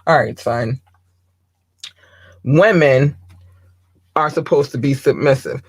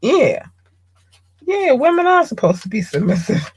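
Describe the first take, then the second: First: Dad impersonation. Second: High-pitched mock agreement; son parroting dad. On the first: Acted. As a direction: put on a hint of a lecturing father. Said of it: "my best dad impersonation". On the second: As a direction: parrot dad's rule in a raised, put-on voice. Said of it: "So you go out here and you think".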